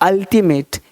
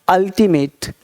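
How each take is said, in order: Both takes have the same delivery.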